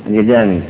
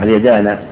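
First: The final vowel is an 'i' sound. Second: The final vowel is an 'a' sound. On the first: "إنه مكسورة" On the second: "ولا مفتوح"

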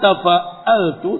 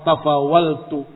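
First: The middle consonant is a glottal stop. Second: The middle consonant is a w sound. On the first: This is the full form. "dengan hamzah" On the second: This is the lightened form. "Bisa ditakhfif"

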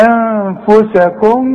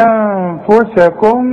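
The two takes are said the same way.

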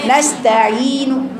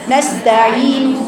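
The two takes are said the same way.

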